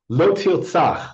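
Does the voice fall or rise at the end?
fall. It is said as a firm command, falling.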